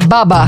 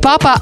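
First: The word is said with B sounds. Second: The word is said with P sounds.

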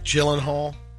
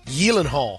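First: The name is pronounced the common English way. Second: The name is pronounced the Swedish way. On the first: The speaker calls it wrong. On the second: The speaker calls it right.

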